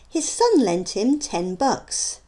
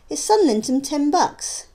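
First: Each word is said separately and clearly. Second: The words are run together and reduced. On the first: "you can see the words being spoken" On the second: "how they might sound to the listener"

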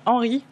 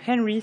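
First: The name is said with a French accent. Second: The name is said with an English accent.

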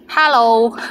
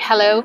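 First: It is said with a Cantonese accent. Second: It is said with an English accent.

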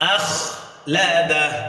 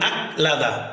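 First: The middle consonant is a harsh kh sound. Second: The middle consonant is a plain k sound. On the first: The speaker calls it right. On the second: The speaker calls it wrong.

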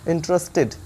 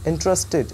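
The two takes are said the same way.

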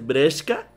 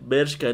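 First: The first syllable is said as 'bre'. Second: The first syllable is said as 'ber'. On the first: "dice Breshka, es genuino porque ese güey así habla" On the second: "en vez de decir Bershka"

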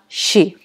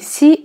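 First: The syllable begins with a soft sh sound. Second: The syllable begins with a plain s sound. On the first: The speaker calls it right. "а «щи»" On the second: The speaker calls it wrong. "правильно не «си»"

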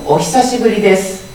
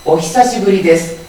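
First: The 'hi' sound is soft and smoothly connected. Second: The same.

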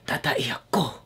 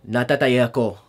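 First: It is said with dramatic, heartfelt emotion. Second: It is said plainly, without strong emotion.

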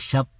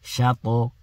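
First: The final t stops flat with no bounce. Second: The final t is hit with an echoing bounce. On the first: The speaker calls it wrong. "don't pronounce it like this. Don't say shat" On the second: The speaker calls it right. "you've got to hit it"

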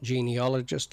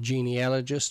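First: The middle syllable is said with an 'ol' sound. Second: The middle syllable is said with an 'al' sound. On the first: The speaker calls it wrong. "not genealogist, like some people say" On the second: The speaker calls it right. "Notice I said genealogist"

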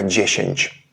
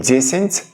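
First: The word ends in a hushing ch sound. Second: The word ends in a hissing ts sound. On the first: "м'які польські приголосні звучали як шепеляві" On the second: "не дзєсінць"

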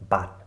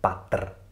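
First: The word ends cleanly on the t sound. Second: An extra r sound follows the final t. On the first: The speaker calls it right. "sondern bat" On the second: The speaker calls it wrong. "also nicht batr"

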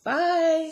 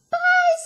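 First: It is said in a middle-sized voice. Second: It is said in a teeny tiny voice.

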